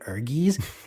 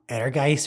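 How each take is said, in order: First: The name ends with a 'gies' sound. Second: The name ends with a 'geist' sound. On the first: The speaker calls it wrong. "So we just been calling it Ergies" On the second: The speaker calls it right. "it's actually pronounced like um Ehrgeist or something because it's like German"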